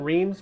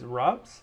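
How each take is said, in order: First: The name is said with an American pronunciation. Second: The name is said with a French pronunciation. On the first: "also pronounced, if you are uh, American" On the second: "the French pronunciation is"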